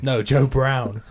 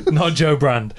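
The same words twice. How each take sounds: First: "Brown" drawn out slowly as a correction; stress on Brown. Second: "Brand" marked out as the wrong name; stress on Brand. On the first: Correcting the co-host's mishearing, "Brown" slow and stressed. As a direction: say "Brown" slowly and distinctly, unlike Brand. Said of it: asked whether an old song by a singer was meant. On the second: Correcting the co-host's mishearing, "Brand" stressed in contrast. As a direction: contrast "Brand" firmly against Brown. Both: Real, not acted.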